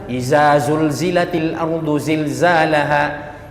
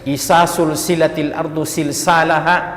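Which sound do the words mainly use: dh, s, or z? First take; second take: z; s. First: Every sound, including the first, is a z. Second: The z sounds are replaced by s sounds. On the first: "Jangan dihantam satu" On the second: "yang dal dibaca sa"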